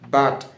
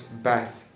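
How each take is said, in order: First: The th sound is replaced by another sound. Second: A clear th sound is pronounced. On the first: The speaker calls it wrong. "If I don't pronounce the th sound" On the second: The speaker calls it right. "when I pronounce the th sound correctly"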